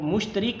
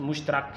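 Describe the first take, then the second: First: The vowel before the final k is i. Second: The vowel before the final k is a. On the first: The speaker calls it wrong. "मुश्तरिक ना बोला करें" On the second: The speaker calls it right. "इसका दुरुस्त लफ्ज़ मुश्तरक है"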